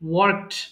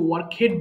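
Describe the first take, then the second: First: It is said as one syllable ending in 't'. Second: It is said with an extra 'hed' syllable. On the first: The speaker calls it right. "এটা হবে ওয়ার্কড" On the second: The speaker calls it wrong. "ভুল করে আমরা অনেক সময় ওয়ার্ক হেড বলে ফেলি।"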